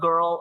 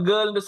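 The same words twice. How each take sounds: First: It is said with a native English accent. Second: It is said with a local Tamil-English accent. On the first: This is how native English speakers say it. "அவன் கேர்ள் அப்படி பேசுவான்" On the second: This is how local speakers say it. "நம்ம கேர்ள் சொன்னா"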